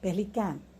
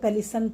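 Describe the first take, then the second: First: The middle consonant is a k sound. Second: The middle consonant is an s sound. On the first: The speaker calls it right. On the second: The speaker calls it wrong.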